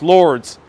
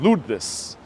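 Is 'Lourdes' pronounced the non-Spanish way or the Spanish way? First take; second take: non-Spanish; Spanish. First: The name is pronounced without Spanish sounds. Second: The name is pronounced with Spanish sounds. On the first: "some people are saying that's pronounced Lourdes" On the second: "I'm pronouncing it in Spanish"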